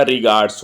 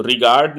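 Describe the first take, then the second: First: रिगार्ड्स said with a final s; रिगार्ड्स ending in ds; giving रिगार्ड्स as the right answer; correct plural form. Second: रिगार्ड said with no final s; रिगार्ड ending on a bare d; marking रिगार्ड as the wrong form; wrong singular form. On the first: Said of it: "रिगार्ड्स होता है". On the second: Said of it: "रिगार्ड नहीं होता". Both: Shown as a demonstration.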